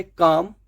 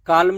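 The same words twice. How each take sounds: First: काम said kaam, no l; काम, एल नहीं; silent l. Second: काल्म with the l said; काल्म, एल बोलते हुए; wrong l sounded. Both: Shown as a demonstration. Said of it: "काल्म नहीं".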